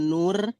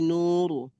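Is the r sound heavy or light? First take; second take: light; heavy. First: The r is pronounced light and thin. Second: The r is pronounced heavy and thick. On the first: The speaker calls it wrong. "bukan nur, bukan tipis" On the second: The speaker calls it right. "Min nur ayat empat puluh itu tebal"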